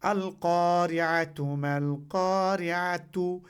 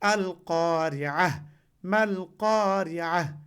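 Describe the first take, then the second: First: The words end with a tu sound. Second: The words end with an h sound. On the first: The reader carries on without stopping. "এখানে তু আছে" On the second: The reader stops at this point. "আমরা যখনই থামবো তখন এইভাবে পড়ি আমরা"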